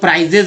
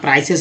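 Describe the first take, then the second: First: The middle consonant sounds like a z. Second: The middle consonant sounds like an s. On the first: The speaker calls it wrong. "लोग प्राइजेस बोल देते हैं, जो कि गलत उच्चारण करते हैं" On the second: The speaker calls it right. "यहाँ प्राइसेस रखना है ध्यान आपको हमेशा"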